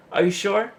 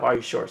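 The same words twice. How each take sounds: First: High, insistent "Are you sure?" rising at the end; pestering coworker. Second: Said in the usual way. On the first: Retold or imitated. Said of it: "it's annoying because they'll be like". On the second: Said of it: "You get a lot of".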